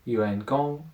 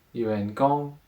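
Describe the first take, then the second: No difference in how they are said.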